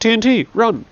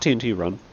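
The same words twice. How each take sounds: First: A pause comes before run, said as a shout. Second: It flows straight on without a pause before run. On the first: It warns that TNT is coming, so run. The speaker calls it right. "but T N T, run!" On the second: It names a different game. The speaker calls it wrong. "Not T N T run"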